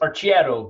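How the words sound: It is pronounced the Italian way. "in Italian it's Arciero"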